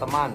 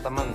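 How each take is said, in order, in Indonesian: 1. Vokal kedua adalah 'a' yang jelas. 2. Vokal kedua adalah bunyi 'e'. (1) "harus diucapkan teman" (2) "bukan temen, yang biasa diucapkan dalam bahasa sehari-hari"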